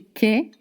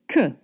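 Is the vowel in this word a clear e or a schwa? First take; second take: clear e; schwa. First: The vowel is a clear, Spanish-like e sound. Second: The vowel is a relaxed schwa sound. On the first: The speaker calls it wrong. "We don't say que" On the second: The speaker calls it right. "we said que, the schwa sound"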